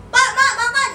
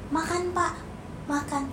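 First: High, louder call across the room; yelling from afar. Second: Walk over and invite gently and softly; polite, up close. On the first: Child calling parents to eat from afar, high loud yell. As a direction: yell it across the house, the wrong way. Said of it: "Nggak gitu, harus samperin". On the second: Child inviting father to eat up close, soft and polite. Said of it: "harus samperin". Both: Shown as a demonstration.

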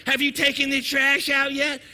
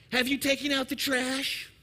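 First: Higher, louder nagging question; nagging wife. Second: Lightly voiced wife, a little raised in pitch; wife's question. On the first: Acted. Wife standing over overflowing trash, loudly insistent nagging. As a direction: press it like an exasperated wife. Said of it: "she's standing over the trash looking at it". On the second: Wife asks husband watching the ball game, mild nagging question. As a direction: ask it as a wife checking on a chore. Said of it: "Your wife tells you".

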